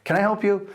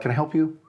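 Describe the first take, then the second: First: It sounds friendly and nice. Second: It sounds suspicious and unfriendly.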